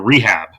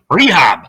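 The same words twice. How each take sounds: First: It is said in a plain, unaccented way. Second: It is said with a Yiddish-style accent.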